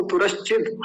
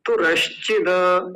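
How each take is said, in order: First: तुरश्चिद cut off on a bare final d; halant ending. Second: तुरश्चिद slow, with a long final 'da'; without halant. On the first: Teacher showing the halant, तुरश्चिद ending on bare d. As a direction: stop तुरश्चिद on the d, no vowel after. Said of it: "द के नीचे हलंत है". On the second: Teacher showing students the no-halant reading, तुरश्चिद ending in da. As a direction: let तुरश्चिद trail into an open a after the d. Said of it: "हलंत ना होता तो क्या बोलते?". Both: Shown as a demonstration.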